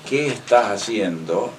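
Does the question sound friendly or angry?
friendly. The question is asked in a warm, friendly tone. The speaker is showing kindly interest. "Y me sonrío y le pongo la mano en el hombro"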